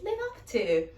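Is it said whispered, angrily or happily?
happily. It is said in a happy tone.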